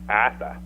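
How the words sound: The r sounds in the name are dropped.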